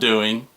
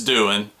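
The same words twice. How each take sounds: First: It ends with a full -ing sound. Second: It ends in -in, Southern style.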